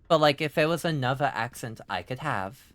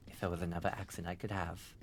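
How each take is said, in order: First: Said in the usual way. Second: Much softer, lower and quicker; quiet repeat. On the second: Real, not acted. Streamer restating a wish about accents, quietly. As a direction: say it under your breath, dropped low.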